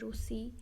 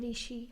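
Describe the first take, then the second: First: The first syllable is pronounced 'ru'. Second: The first syllable is pronounced 'ri'. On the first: This is the Odia pronunciation. "हम बोलते रूसी" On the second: This is the Hindi pronunciation. "आप बोलते ऋषि"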